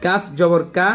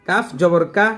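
The two takes are said the same way.

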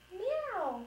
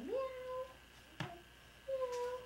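First: High mewing kitten; kitten meow. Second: High soft kitten mew; kitten meow. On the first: Pretend. Mom voicing the kitten in the storybook, high meow. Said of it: "said the kitten". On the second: Shown as a demonstration. Mom showing her toddler how to meow, high and soft. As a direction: mew softly and high for the child to copy.

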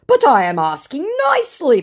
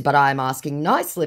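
First: Loud, high mock plea; hammed-up begging; pleading scammer. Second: Said in the usual way. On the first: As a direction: insist as a whining scammer.

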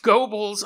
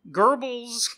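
First: Goebbels said as "GOH-bulz"; first syllable of Goebbels like "go"; alternative pronunciation. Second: Goebbels said as "GUR-bulz"; first syllable of Goebbels like "gur"; attempted pronunciation. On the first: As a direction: say Goebbels with a long "oh", loud and high. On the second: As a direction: say Goebbels with an "ur" vowel, higher pitched. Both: Real, not acted. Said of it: "I'm gonna mispronounce his name".

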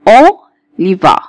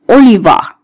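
First: "اوليفار" slowly split as O, pause, li-va; syllable-split demo. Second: Said in the usual way. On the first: Shown as a demonstration. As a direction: break "اوليفار" after the first O. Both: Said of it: "زي كلمة ايه؟".

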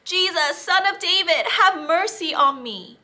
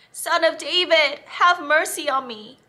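First: High, loud plea for mercy; calling out loudly. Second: High, loud repeated plea; shouting again. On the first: Blind beggar calls to Jesus over the crowd, loud and high. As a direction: cry out to be heard over the crowd. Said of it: "called out loudly". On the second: Beggar shouts again to Jesus, loud and high. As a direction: call out even harder over them. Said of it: "Bartimaeus shouted again". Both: Acted.

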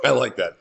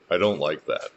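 First: Preacher jokes about the verse, laughing; laughing approval. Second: Preacher corrects himself, dry and low; corrected disapproval. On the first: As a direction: say it amused, as if pleased. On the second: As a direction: take it back soberly. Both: Shown as a demonstration. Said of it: "Or should I say".

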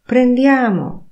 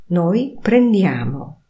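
First: "Prendiamo" higher and louder with a falling end; rally everyone: "Prendiamo!"; commanding tune. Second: Said in the usual way. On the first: Shown as a demonstration. Teacher shows "Prendiamo" as a loud, high order. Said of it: "intonacja powodują". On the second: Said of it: "trybie oznajmującym".

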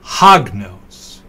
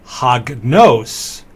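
First: Hagnos with the stress on "hag"; "hagnos" said HAG-nos, falling away; stress on first syllable. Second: Hagnos with the stress on "nos"; stress on second syllable. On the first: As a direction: punch the opening "hag" of "hagnos". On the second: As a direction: say "hagnos" slowly, landing on "nos". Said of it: "put stress on that syllable". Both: Shown as a demonstration.

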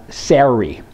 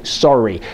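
First: "Sorry." with the vowel of scary, SAIR-ee; an American showing how "Sorry." should sound, like SAIR-ee. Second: 'Sorry.' with the Canadian 'sore' vowel, like SORE-ee; 'Sorry.' said as SORE-ee, Canadian style; an American mimicking the Canadian 'Sorry.' as SORE-ee; Canadian sorry. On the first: Retold or imitated. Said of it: "Kind of like scary". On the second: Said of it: "All you Canadians say".

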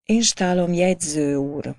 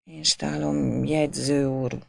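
First: Said in the usual way. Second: A quiet, faltering stammer. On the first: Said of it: "köszönt alázatosan". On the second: A narrator's reading. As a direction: stumble over "Én stálom" timidly.

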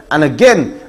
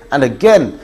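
The two takes are said the same way.

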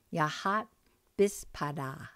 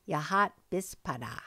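First: "Yahat" then a pause, then "bispada", as two separate parts; careful chunked teaching repeat; split into parts. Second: Said in the usual way. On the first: Shown as a demonstration. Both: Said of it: "So let's repeat those".

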